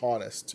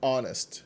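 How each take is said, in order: First: The starting h sound is pronounced. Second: The starting h sound is silent. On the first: The speaker calls it wrong. "não existe honest em inglês" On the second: The speaker calls it right. "É sempre honest"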